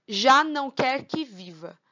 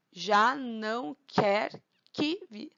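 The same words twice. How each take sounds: First: Said in the usual way. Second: "Já não quer que viva" slowly split into syllables; deliberate, slow scansion of a verse. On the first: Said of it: "Vamos tirar a prova". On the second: Shown as a demonstration. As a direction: stretch and separate each syllable for counting. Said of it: "Um, dois, três".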